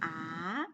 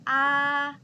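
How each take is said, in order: First: The pitch rises from middle to high. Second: The pitch stays high and level. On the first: "It's a raising tone" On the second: "one is the first tone"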